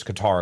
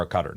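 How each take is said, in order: First: Qatar pronounced kuh-TAR; Qatar with an open, stressed "tar"; second-syllable stress. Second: Qatar pronounced like "cutter"; Qatar with stress up front and a weak ending; first-syllable stress. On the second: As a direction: say Qatar as KUH-ter, lower. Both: Shown as a demonstration. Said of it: "about what, what it is".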